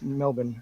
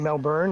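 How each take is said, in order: First: Melbourne is said the Australian local way. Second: Melbourne is said the speaker's Canadian way. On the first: This is how the locals taught the speaker to say it. The speaker calls it right. "now it's Melbourne" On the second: This is how the speaker said it before moving. The speaker calls it wrong. "I used to say Melbourne"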